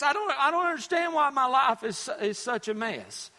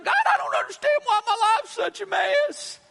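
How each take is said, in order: First: Said in the usual way. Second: Hammed-up, bewildered cry to heaven; exasperated plea to God. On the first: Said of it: "and we ask". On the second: Preacher mimicking people asking God why, exasperated plea. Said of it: "and then we ask God".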